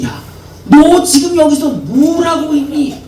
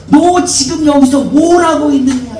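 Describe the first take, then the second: First: Higher, stern rebuke; rebuking God. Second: Higher, stern rebuke; rebuking question. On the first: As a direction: reproach him for coming back. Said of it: "책망을 하고 있는 겁니다". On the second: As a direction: ask it as a reproach, not a greeting. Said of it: "책망하고 계십니다". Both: Acted. (엘리야를 책망하는 하나님, 높고 엄하게)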